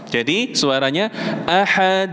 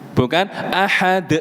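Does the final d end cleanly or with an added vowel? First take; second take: cleanly; added vowel. First: The final d ends cleanly with no vowel. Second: The final d is followed by an added e vowel. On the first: The speaker calls it right. "tidak boleh sampai ada suara e di belakang qalqalah" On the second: The speaker calls it wrong. "Kalau ahad itu berarti ada hamzah di belakang dal"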